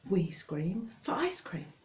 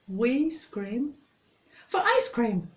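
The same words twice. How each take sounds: First: It is said somewhat faster than normal. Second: It is said at a moderate, normal speed.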